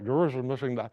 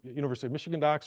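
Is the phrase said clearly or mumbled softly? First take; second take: mumbled; clearly. First: It is said softly and mumbled. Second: It is said clearly at normal volume.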